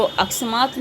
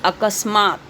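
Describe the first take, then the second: First: अकस्मात misread as "aksamaat", k run into s; wrong pronunciation. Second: अकस्मात said "a-kas-maat", s after the ka; correct pronunciation. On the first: Teacher showing pupils what the word is not, अकस्मात mispronounced "aksamaat". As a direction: say अकस्मात wrongly as "aks-maat". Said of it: "तो अकस्मात नहीं होता". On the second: Teacher showing pupils how to read it, अकस्मात pronounced "a-kas-maat". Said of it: "इसको हम लोग किस तरह से पढ़ते हैं?". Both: Shown as a demonstration.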